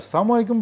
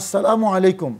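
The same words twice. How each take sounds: First: The greeting is said quickly with syllables dropped. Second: Every syllable of the greeting is pronounced clearly. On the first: Destruction be upon you. The speaker calls it wrong. "তাড়াতাড়ি উচ্চারণ করার প্রয়োজনে" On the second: Peace be upon you. The speaker calls it right. "ইসলামী সালাম"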